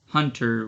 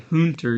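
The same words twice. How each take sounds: First: The first vowel sounds like 'ha'. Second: The first vowel sounds like 'hoon'. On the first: The speaker calls it right. "you say hunter, which is closer to ha than it is to hoon" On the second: The speaker calls it wrong. "you don't say hunter"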